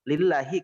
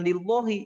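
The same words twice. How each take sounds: First: The vowel after the L is a thin a. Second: The vowel after the L is a heavy o-like sound. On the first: The speaker calls it right. "Ketika tarqiq dengan vokal a" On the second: The speaker calls it wrong. "kenapa bukan lillahi?"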